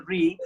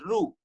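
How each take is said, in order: First: Re said as "ree"; ri sound. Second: Ru said as "roo"; ru sound. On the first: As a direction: say re with a long ee vowel. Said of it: "So we say re". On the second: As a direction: say Ru with an oo vowel. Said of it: "some so call it as Ru". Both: Shown as a demonstration.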